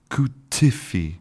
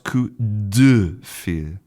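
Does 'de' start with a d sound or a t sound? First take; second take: t sound; d sound. First: The 'de' is devoiced, sounding like 'te'. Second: The 'de' is fully voiced with a 'd'.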